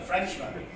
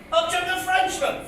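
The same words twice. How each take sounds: First: Quiet aside. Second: Higher, projected recital voice; declaimed verse. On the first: Real, not acted. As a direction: mutter the word to yourself. Quiet repeat to himself. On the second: Acted. Comedian introducing a Frenchman in his poem, declaimed. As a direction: announce the new character in verse. Recited line, then repeated aside.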